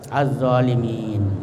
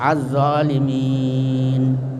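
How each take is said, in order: First: The long vowel before the end is held only briefly. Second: The long vowel before the end is held medium length. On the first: "yang paling singkat pendek, ya, sama mat tabi'i" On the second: "yang kedua sedang, ya, empat alif atau eh, dua alif atau empat harakat"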